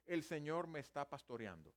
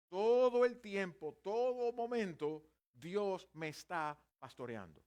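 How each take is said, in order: First: Said in the usual way. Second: Louder and slow, leaning on "Todo el tiempo" and "pastoreando"; emphatic stress. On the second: Shown as a demonstration. Preacher driving home to the congregation that God shepherds constantly, slow and emphatic. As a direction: stretch "Todo el tiempo, todo momento" louder and slowly, landing on "pastoreando". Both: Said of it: "Pero estrictamente el texto dice".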